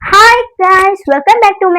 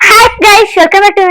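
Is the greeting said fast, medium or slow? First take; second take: medium; fast. First: It is said at a normal, medium pace. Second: It is said quickly, in a rush. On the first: "medium ಆಗಿ ಹೇಳು" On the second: "ನಿಧಾನಕ್ಕೆ ನಿಧಾನಕ್ಕೆ ನೀಟಾಗಿ ಹೇಳು, ಯಾಕೆ ಅರ್ಜೆಂಟಾ?"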